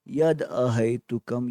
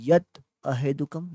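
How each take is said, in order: First: The first word ends in a d sound. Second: The first word ends in a t sound. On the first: "नहीं तो फिर आप यद अहेतुकम" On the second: "यत त का अर्धा इस उस उच्चारण कर सकते हो"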